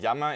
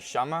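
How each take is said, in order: First: The word starts with a voiced y-like sound. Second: The word starts with a voiceless sh sound. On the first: This is the common pronunciation. "the double L sound" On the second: This is how many Argentinians say it. "turn the double L sound into a sh"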